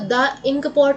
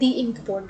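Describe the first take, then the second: First: 'The' is said with a short uh vowel. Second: 'The' is said with a long ee vowel. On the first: The speaker calls it wrong. "द ink pot नहीं" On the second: The speaker calls it right. "दी ink pot बोलेंगे"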